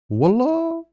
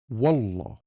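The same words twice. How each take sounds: First: The word sounds high and rising, surprised. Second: The word sounds strong, firm and direct. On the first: The speaker reacts with surprise. "The word becomes a reaction in tone high, rising" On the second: The speaker swears it is true. "The word becomes a promise and sounds strong, direct"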